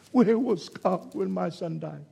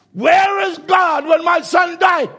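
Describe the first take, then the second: First: Said in the usual way. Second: High, loud, slow wail of a grieving father; anguished cry. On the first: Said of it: "he grabbed him". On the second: Retold or imitated. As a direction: cry out in anguish, stretching every word. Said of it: "And he cried out".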